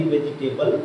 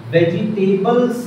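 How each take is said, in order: First: वेजिटेबल ending on l, no s; singular वेजिटेबल. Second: वेजिटेबल्स slow and raised, final s sounded; plural वेजिटेबल्स. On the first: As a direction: say वेजिटेबल without the final s. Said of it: "नहीं बोला जाता". (वेजिटेबल, आख़िर में स के बिना) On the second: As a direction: stretch out वेजिटेबल्स with its s. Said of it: "ही बोला जाता है". (वेजिटेबल्स, आख़िर में स के साथ) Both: Shown as a demonstration.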